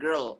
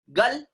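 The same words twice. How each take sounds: First: Put-on "girl" with a clear R; proper girl. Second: Put-on "Girl" said without the R; the local "Girl", R dropped. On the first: Teacher to students: "girl" said with a clear R. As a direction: sound the R in "girl". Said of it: "R will not be silent". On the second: Teacher to students: local "Girl" without the R. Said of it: "So this is what?". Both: Shown as a demonstration.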